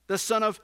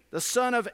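Both takes have the same delivery.

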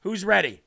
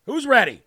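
First: Said in the usual way. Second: Louder, higher call to the crowd; excited hype. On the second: Real, not acted. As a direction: pump up the audience. Hyping the audience.

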